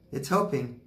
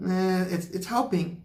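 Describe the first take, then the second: First: Said in the usual way. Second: High, put-on squeak on it's helping; mock squeaky voice. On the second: Mocking viewers who want instant healing, in a high squeak. Mocks quick-fix healing, then repeats.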